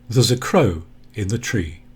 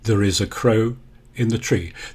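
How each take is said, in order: First: 'There is' is contracted into one syllable. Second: 'There is' is said as two weak words. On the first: "an even weaker form in colloquial and spoken English" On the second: "That's very weak"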